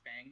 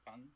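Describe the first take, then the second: First: The name gets an Americanized pronunciation. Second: The name gets its Chinese pronunciation. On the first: "People pronouncing it Fang is like the American" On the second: "her name's Fung"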